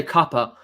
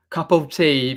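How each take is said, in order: First: "cuppa" run together as KUH-puh, the t of "cup of tea" dropped; southern slang cuppa. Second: Said in the usual way. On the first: Shown as a demonstration. Explaining local slang to a chat viewer, casual clipped "cuppa". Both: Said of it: "we say cuppa".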